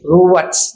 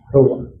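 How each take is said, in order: First: The word ends with a clear consonant sound. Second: The word ends on a vowel, final sound silent.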